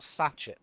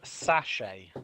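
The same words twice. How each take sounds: First: The ending does not rhyme with pay. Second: The ending rhymes with the word pay. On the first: The speaker calls it wrong. "not sachet" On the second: The speaker calls it right. "It's pronounced sachet, Rhymes with to pay"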